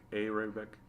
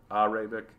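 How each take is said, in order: First: Softly said "Arabic" as AY-ray-bik; long AY opening the word "Arabic", said quietly; first vowel AY. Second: "Arabic" said as AH-ray-bik; first vowel AH. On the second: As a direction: open AH opening the word "Arabic". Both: Shown as a demonstration. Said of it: "not Arabic".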